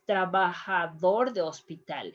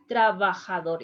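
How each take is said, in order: First: Spanish throat J in trabajador; "trabajador de hospital" with an H-like J; correct Spanish pronunciation. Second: English J in trabajador; wrong pronunciation. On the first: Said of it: "Trabajador is not trabajador". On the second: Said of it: "is not trabajador". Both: Shown as a demonstration.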